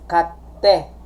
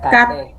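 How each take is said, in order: First: The t sound is held long, like double t. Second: The t sound is short and single. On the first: The speaker calls it right. "kapag merong tsu, ang pronunciation niya is kate" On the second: The speaker calls it wrong. "Not kate"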